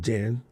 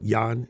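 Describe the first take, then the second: First: The name begins with a j sound. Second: The name begins with a y sound. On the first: This is how it is said in English. The speaker calls it wrong. "instead of" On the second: This is how it is said in the Netherlands. The speaker calls it right. "no J in the Netherlands. like"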